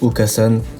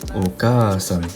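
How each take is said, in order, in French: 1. La voyelle après le k est courte. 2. La voyelle après le k est prolongée. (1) "au lieu de dire Okasan" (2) "le A il sert à prolonger le A"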